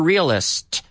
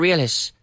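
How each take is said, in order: First: The final sounds of the word are clearly pronounced. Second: The final sounds of the word are dropped lazily. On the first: The speaker calls it right. "pronounce the ends properly" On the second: The speaker calls it wrong. "Not a realist. You can't be lazy with the ending of the words"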